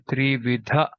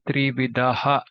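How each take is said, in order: First: The final visarga is only a brief breathy release. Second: The final visarga is voiced as a full echo syllable. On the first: The speaker calls it right. "we say Trividha. That Aha is just a little bit stressed" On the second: The speaker calls it wrong. "we don't say Trividaha"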